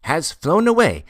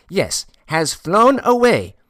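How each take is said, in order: First: High, loud mysterious pronouncement. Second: Very high, loud and drawn-out mystery; more mysterious. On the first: Porter revealing a secret to Ordinov, mysterious and high. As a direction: announce a strange secret, voice raised. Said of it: "repeated in a still more mysterious tone". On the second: Porter repeating his secret to Ordinov, heightened mysterious tone. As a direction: stretch it out slowly, high and portentous. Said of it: "he repeated in a still more mysterious tone". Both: A narrator's reading.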